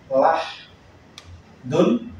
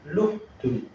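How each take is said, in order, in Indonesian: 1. Suku kata pertama memiliki vokal 'a'. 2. Suku kata pertama memiliki vokal 'u'. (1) "Lamnya bisa dibaca la atau lu" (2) "Lamnya bisa dibaca la atau lu"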